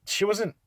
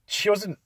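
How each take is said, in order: Both takes have the same delivery.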